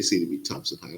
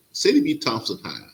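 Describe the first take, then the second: First: Said in the usual way. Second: Proud. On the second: Real, not acted. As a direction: announce the school name like a proud alum. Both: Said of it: "'cause I'm just so proud of the school".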